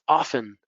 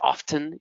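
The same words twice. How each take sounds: First: The T sound is not pronounced. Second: The T sound is pronounced. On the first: "we don't pronounce the T or the H usually" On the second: "Some people say often"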